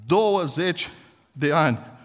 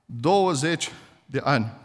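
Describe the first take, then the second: First: Said in the usual way. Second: „Douăzeci“ slowly weighted, falling at the end; slow emphatic repeat. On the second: Shown as a demonstration. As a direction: lean on „Douăzeci“, let it sink.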